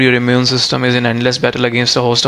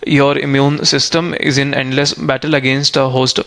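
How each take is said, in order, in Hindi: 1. यह काफ़ी तेज़ पढ़ा गया है। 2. यह धीरे पढ़ा गया है। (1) "नेचुरली आपको स्पीड में बोलना चाहिए थोड़ा" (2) "तो स्लो स्पीड में रीड करना है आपको"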